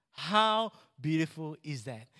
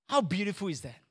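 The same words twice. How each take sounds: First: Drawn-out HOW, then a pause; slow, deliberate rhetorical question; slow emphatic repeat. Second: Said in the usual way. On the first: Real, not acted. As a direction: savour it slowly, stretching "How".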